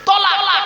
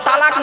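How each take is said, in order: First: The first vowel is a rounded o sound. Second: The first vowel is an open aa sound. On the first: The speaker calls it right. "শব্দটা কি? তলাক।" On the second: The speaker calls it wrong. "শব্দটা তালাক নয়"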